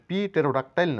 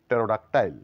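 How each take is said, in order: First: A p sound is heard at the start. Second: No p sound is heard at the start. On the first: The speaker calls it wrong. "না বলে" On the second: The speaker calls it right. "বলবো আমরা"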